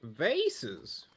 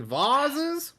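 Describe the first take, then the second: First: "Vases" as VAY-siz, rhyming with faces; questioned pronunciation. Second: "vases" as VAH-ziz, high and drawn out; corrective pronunciation. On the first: Querying the florist's word, "Vases" said VAY-siz. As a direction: say "Vases" with a long AY and hissed s. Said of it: "correct you in your pronunciation". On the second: Correcting the florist, "vases" said slowly as VAH-ziz. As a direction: say "vases" with a broad AH and buzzing z. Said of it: "don't mean to correct you in your pronunciation". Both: Acted.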